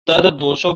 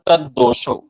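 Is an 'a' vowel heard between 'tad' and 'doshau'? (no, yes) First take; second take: yes; no. First: A short 'a' vowel follows 'tad' before 'doshau'. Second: No vowel follows 'tad'; the d sounds are joined. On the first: The speaker calls it right. "तद्दोषौ के स्थान पर" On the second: The speaker calls it wrong. "तद्दोषौ ऐसा उच्चारण कर देते हैं"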